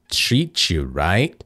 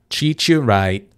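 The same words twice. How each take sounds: First: Spoken slowly with the T released. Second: Spoken naturally with the T held. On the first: "Só porque eu tava falando bem devagarinho" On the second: "segurei o T"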